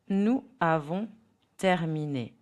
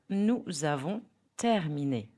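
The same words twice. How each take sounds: First: The words are said separately, without a linking sound. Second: The words are linked with a connecting consonant sound. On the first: The speaker calls it wrong. "Without liaison, speech sounds robotic" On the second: The speaker calls it right. "Now with liaison"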